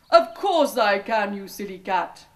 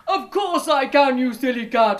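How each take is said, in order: First: Ogre's boast. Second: Loud, higher scornful ogre voice; ogre's boast. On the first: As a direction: sneer it like a boastful ogre. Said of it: "he said". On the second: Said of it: "said the ogre". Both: A narrator's reading.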